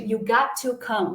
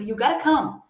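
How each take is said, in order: First: 'Got' and 'to' are said as separate words. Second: 'Got to' is blended into one reduced word. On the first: "Ao invés de" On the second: "Ao invés de you got to come"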